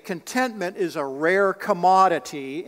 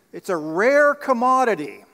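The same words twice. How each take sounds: First: Said in the usual way. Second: "rare commodity" punched higher and louder; emphatic repeat. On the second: Real, not acted. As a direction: drive home "rare commodity" with raised pitch. Emphatic repeat after asking for amen.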